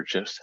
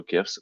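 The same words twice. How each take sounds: First: "gifs" starting with a j sound; soft-g pronunciation. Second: "gifs" starting with a hard g sound; hard-g pronunciation. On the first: Presenter offering the other way to say it, "gifs" with soft g. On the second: Presenter offering either name for the project, "gifs" with hard g. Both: Shown as a demonstration. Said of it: "however you pronounce that".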